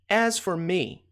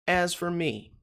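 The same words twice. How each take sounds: The two takes are said the same way.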